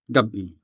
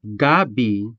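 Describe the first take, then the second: First: Gab-i with a sharp break between gab and i; Gab-i, clearly separated; glottal stop. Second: Gabi run together smoothly, no break; no glottal stop. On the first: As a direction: stop hard after gab, then i. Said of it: "say gab-i with that sharp stop". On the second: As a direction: blend gab and i into one flow. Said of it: "say it without the pause". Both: Shown as a demonstration.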